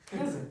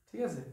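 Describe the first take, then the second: Both takes have the same delivery.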